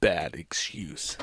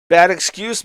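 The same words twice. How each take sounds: First: Mock reply. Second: Mocking echo. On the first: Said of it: "And he says". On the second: Real, not acted.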